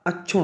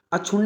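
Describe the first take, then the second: First: अक्षुण ending on a single n; correct pronunciation. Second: अक्षुण्ण with doubled n and final vowel; wrong pronunciation. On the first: Teacher gives the right form, अक्षुण with single final n. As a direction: close अक्षुण in "-un", no added vowel. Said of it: "होता है". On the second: Teacher shows the mistake, अक्षुण्ण ending in "-unna". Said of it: "नहीं होता". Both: Shown as a demonstration.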